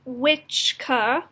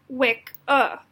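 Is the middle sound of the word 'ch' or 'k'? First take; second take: ch; k. First: The middle consonant is a 'ch' sound. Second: The middle consonant is a 'k' sound. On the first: This is the older pronunciation. "the original pronunciation was that the C C was pronounced T C H" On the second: This is the modern pronunciation. "today's pronouncing"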